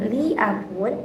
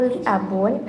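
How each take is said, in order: First: "li" in "li abun" held long; long vowel on li. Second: Said in the usual way. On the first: Shown as a demonstration. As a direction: stretch it to "lii abun". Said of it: "itu menggunakan". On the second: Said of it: "itu tidak menggunakan waktu".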